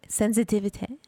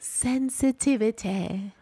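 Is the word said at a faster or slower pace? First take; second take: faster; slower. First: The word is said at a normal, quicker pace. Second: The word is said more slowly and carefully.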